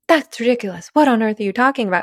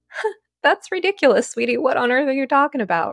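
First: It is said in a harsh, serious tone. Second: It is said in a light, playful tone.

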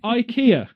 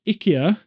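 First: It is said with an English pronunciation. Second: It is said with a Swedish pronunciation.

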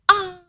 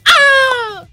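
First: It is a soft, low shout. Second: It is a loud, noisy shout.

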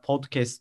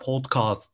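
First: The word is said with an American accent. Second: The word is said with a British accent. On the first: "Amerikalılar podcast diyor" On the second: "İngilizler podcast diyor"

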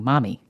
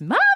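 First: It is said at a softer, calling volume. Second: It is said much louder, almost shouted.

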